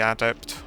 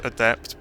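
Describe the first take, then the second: First: Adept with a full opening A, AD-ept; own pronunciation. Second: Adept with stress on the second syllable, uh-DEPT; standard pronunciation. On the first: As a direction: say adept as AD-ept, first syllable like "add". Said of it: "but I say adept". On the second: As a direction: say adept as uh-DEPT, weak first vowel. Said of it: "is probably pronounced adept". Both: Shown as a demonstration.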